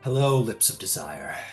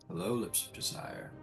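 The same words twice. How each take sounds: First: It is said in Ares' voice. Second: It is said in Hades' voice.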